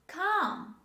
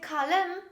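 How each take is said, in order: First: The L sound is silent. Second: The L sound is pronounced. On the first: The speaker calls it right. "This is calm" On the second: The speaker calls it wrong. "Don't say kalem"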